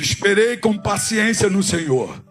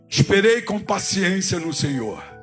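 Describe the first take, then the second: First: It is said louder and with more force. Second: It is said at normal, softer volume.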